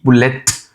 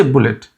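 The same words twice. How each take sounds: First: "bullet" with an over-stressed, popped final T; hard T. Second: "bullet" with a light, unstressed final T; soft T. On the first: Teacher showing what to avoid, hard T in "bullet". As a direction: punch the T at the end of "bullet". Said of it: "stressing too hard on the T". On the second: Teacher showing the simple way, soft T in "bullet". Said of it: "It's a soft". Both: Shown as a demonstration.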